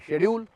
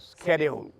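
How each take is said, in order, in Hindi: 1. यह शब्द 'sh' ध्वनि से शुरू होता है। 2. यह शब्द 'sk' ध्वनि से शुरू होता है। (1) "जैसे वो कहते हैं शेड्यूल" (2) "तो ये कहते हैं स्केड्यूल"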